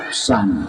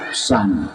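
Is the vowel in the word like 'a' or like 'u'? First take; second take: a; a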